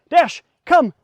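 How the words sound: The call sounds excited and full of energy.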